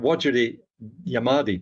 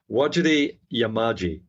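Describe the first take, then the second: First: The final syllable is pronounced like 'di'. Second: The final syllable is pronounced like 'ji'. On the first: The speaker calls it wrong. "I did mispronounce that actually" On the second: The speaker calls it right. "That's the correct pronunciation"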